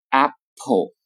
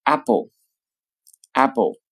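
First: Apple with a clear p; careful apple. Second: Apple with a softened b-like p, very slow; American apple, slow. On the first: Teacher gives the careful apple first. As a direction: say apple with a crisp p. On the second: Teacher demonstrates the slow American apple. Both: Shown as a demonstration. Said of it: "常会读成".

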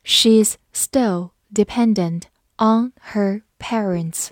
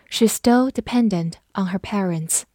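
First: Slow, word by word; slow reading. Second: Said in the usual way. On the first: Shown as a demonstration. Teacher modelling an example about parents, read slowly. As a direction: separate every word clearly. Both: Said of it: "慢读一遍".

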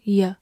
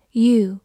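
First: "ye" as a reduced you, with a neutral schwa vowel; weakly pronounced "ye", no long oo; weak form. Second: Said in the usual way. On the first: Shown as a demonstration. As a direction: relax the vowel of "ye" to an unstressed "yuh". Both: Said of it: "或者弱读成ye".

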